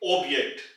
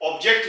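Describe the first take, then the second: First: The j is pronounced like a y. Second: The j is pronounced like English j. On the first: The speaker calls it right. "जे की आवाज यानी कि यॉट की आवाज वाई की निकलेगी" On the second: The speaker calls it wrong. "ये word ऑब्जेक्ट नहीं बनेगा"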